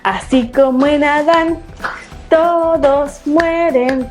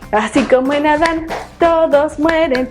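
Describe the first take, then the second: First: It is said at a moderate, slow pace. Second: It is said at the fastest pace.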